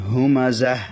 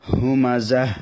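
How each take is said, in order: The two takes are said the same way.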